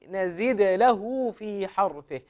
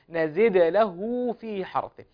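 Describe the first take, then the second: The two takes are said the same way.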